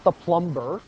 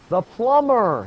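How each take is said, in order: First: The B sound is pronounced. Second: The B sound is silent. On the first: The speaker calls it wrong. "not the plumber" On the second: The speaker calls it right.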